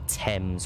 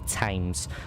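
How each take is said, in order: First: It is said in the speaker's usual British way. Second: It is said the way Americans pronounce it.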